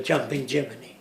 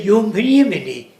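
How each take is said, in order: First: Said in the usual way. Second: "Jumpen Jiminy" with Swedish "Jumpen", J said as Y; Swedish-style pronunciation. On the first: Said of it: "instead of". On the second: Shown as a demonstration. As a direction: say "Jumpen" the Swedish way, yah-mpen. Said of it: "they pronounce things differently".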